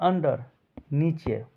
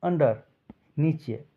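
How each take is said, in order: No difference in how they are said.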